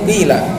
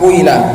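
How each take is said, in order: First: The first vowel is a pure i. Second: The first vowel glides from u into i. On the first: The speaker calls it right. "tapi murni qila" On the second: The speaker calls it wrong. "bukan pula kuila"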